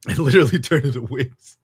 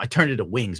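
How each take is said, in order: First: Laughing through a louder retelling. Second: Said in the usual way. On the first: Real, not acted. Laughing as he tells the chat.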